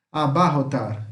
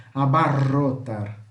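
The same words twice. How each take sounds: First: Said in the usual way. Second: Slow Abarrotar with a trilled rr; vibrating Spanish rr. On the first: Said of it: "Então é esse som". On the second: Shown as a demonstration. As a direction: roll the rr in Abarrotar. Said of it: "Que vibra".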